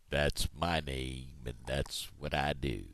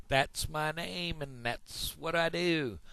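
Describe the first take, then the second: First: Low, slow, drawn-out cow voice. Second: High-pitched, drawn-out frog voice; big-mouth frog. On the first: Cow finishes introducing itself to frog, low and slow. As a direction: plod through it low and unhurried. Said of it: "I'm a cow". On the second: Frog introduces himself to another animal, high and slow. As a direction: stretch it out high as a cartoon frog. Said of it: "I'm the big mouth frog". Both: Acted.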